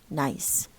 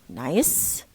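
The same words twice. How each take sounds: First: The pitch falls on the word. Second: The pitch rises on the word.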